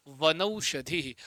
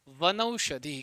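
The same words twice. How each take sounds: First: वनौषधि drawn out very slowly, syllable by syllable; teacher sounding out the joined word slowly; slow dictation. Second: Said in the usual way. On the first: Shown as a demonstration. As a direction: stretch वनौषधि out slowly for the class. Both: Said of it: "क्या बन जाएगा?".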